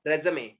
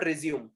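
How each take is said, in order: First: Resume as "re-zuh-may"; three syllables in Resume, ending "may"; correct résumé. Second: Resume as "ri-zyoom"; two syllables in resume, ending "zyoom"; wrong résumé. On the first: Teacher summing up the right word, Resume as "re-zuh-may". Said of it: "Resume, it is not resume". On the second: Teacher rejecting the mistake, resume as "ri-zyoom". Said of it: "it is not resume". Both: Shown as a demonstration.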